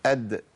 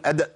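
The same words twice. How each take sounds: First: أد with a short bounced d and no vowel after it; أد, crisp echo on a still final d; correct qalqala. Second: أد with the bounce stretched toward an added "a", like "adda"; overdone qalqala. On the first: Shown as a demonstration. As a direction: let the d of أد pop free, still vowelless. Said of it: "وده اللي هيخليني أطلع الدال". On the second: Retold or imitated. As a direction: exaggerate the release of أد into a short open vowel. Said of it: "ده في ناس بتقول".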